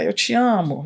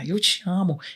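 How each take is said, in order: First: The phrase is said in a scornful, dismissive tone. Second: The phrase is said in a warm, loving tone. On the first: "Uma frase mais, assim, desdenhosa" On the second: "E a outra eu já falo com mais amor"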